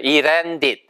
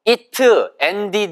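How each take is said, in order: First: The t is a quick flap, like an r. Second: The t is a clear, separate t sound. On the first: The speaker calls it right. "발음이 이레, 랜디드처럼 들려요" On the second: The speaker calls it wrong. "이렇게 안 들리고요"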